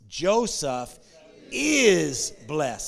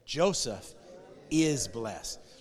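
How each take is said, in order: First: The stress is on "is". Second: No word is specially stressed.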